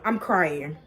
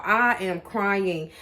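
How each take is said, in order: First: Said in the usual way. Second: "I am crying" drawn out slowly, word by word; emphatic repeat. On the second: Real, not acted. Vlogger owning up to viewers, "I am crying" said slowly and emphatically.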